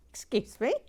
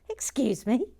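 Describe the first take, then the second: First: Said in the usual way. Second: Mock-prim whispered excuse me. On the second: Host primly whispering at Sharon's confession. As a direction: hush it primly.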